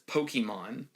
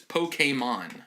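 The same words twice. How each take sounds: First: It is said in the older, nonstandard way. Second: It is said in the standard, careful way. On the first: The speaker calls it wrong. "pronounces Pokemon like a boomer" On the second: The speaker calls it right. "the correct pronunciation is Pokemon"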